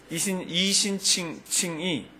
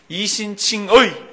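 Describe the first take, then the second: First: The final syllable is pronounced as plain 'i'. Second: The final syllable is pronounced as 'ui'. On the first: "이신칭이 편한 사람 손들어 보실래요?" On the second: "이신칭의가 발음이 편해요?"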